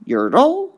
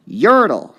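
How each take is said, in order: First: Yertle, TLE rising much higher; stress test on Yertle. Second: Yertle, YER punched louder and higher; stress test on Yertle. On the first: Teacher trying stress on the end of Yertle. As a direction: lift the end of Yertle up like a question. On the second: Teacher testing stress on Yertle. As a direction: hit the YER in Yertle hard. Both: Shown as a demonstration. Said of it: "one you really have to hear".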